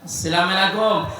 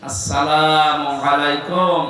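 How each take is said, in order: First: The greeting is pronounced in a sloppy, slurred way. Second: The greeting is pronounced carefully and clearly. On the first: The speaker calls it wrong. "এই সালাম শব্দটা এখনো শুদ্ধ উচ্চারণে হয় না" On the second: The speaker calls it right. "আজকে থেকে ঠিক করে নেবেন"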